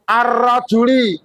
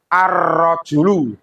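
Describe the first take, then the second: First: The word ends in an i vowel. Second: The word ends in a u vowel. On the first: The speaker calls it wrong. "Tidak boleh ar-rajuli, salah" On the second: The speaker calls it right. "Harus ar-rajulu"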